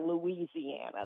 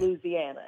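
First: It is pronounced the way outsiders say it. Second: It is pronounced the way locals say it. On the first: The speaker is not from the state. The speaker calls it wrong. "never Louisiana. That's how they pick you as an outsider" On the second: The speaker is from the state. The speaker calls it right. "If you live in or have lived in Louisiana, it's okay"

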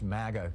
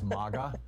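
First: The first vowel sounds like the a in cat. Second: The first vowel sounds like the a in father. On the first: "that sounds too much like maggot" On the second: "which sounds kind of like mama"

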